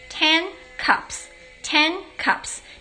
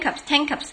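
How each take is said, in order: First: Ten keeps its clear final n sound. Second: Ten's final sound changes, blending into cups.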